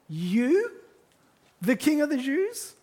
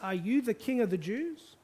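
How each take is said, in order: First: It is asked incredulously, stressing "you." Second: It is asked as a neutral question.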